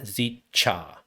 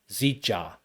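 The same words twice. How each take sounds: First: The middle consonant sounds hard, like ch. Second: The middle consonant sounds soft, like j. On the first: The speaker calls it wrong. "and not zicha" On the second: The speaker calls it right. "it's more like a j"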